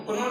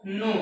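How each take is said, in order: First: "कोनो" for know, with the K pronounced; K wrongly sounded. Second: "नो" for know, starting straight on N; silent K. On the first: Teacher showing what students don't read, K sounded in "कोनो". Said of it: "कोनो नहीं पढ़ते हैं". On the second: Teacher giving a school example, silent K in "नो". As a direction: say "नो" with the K left silent. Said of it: "नो, के silent है". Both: Shown as a demonstration.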